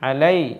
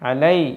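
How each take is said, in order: Both takes have the same delivery.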